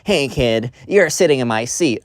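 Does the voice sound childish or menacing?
childish. It is said in a young, childish voice. A seventh-grade kid is talking. The speaker calls it right. "we're dealing with, like, uh, seventh grade bullies"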